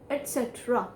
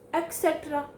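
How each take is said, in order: First: The first syllable is pronounced 'et'. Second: The first syllable is pronounced 'ek'. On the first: The speaker calls it right. "It is et cetera" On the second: The speaker calls it wrong. "Not et cetera. Ac"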